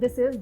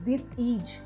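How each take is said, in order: First: It is said with standard English pronunciation. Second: It is said with a mother-tongue influenced accent. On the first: The speaker calls it right. "Instead of सेइंग" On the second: The speaker calls it wrong. "दे से"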